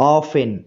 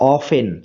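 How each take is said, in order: No difference in how they are said.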